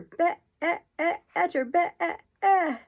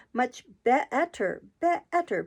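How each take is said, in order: First: High, louder long bleat on be-e-e; sheep bleat. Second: Slow, climbing squeak on be-etter; rising into a squeak. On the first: Queen turning into a sheep, long bleat. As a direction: turn the word into a bleating sheep. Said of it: "The last word ended in a long bleat". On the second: Queen answering Alice, voice rising into a squeak. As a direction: let the voice slide up into a squeak. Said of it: "her voice rising into a squeak". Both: A narrator's reading.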